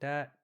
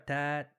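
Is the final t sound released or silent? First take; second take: silent; released. First: The final t is silent, with no air released. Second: The final t is clearly released with a puff. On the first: The speaker calls it wrong. "if someone were to silence it" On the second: The speaker calls it right. "I'd rather hear a tat"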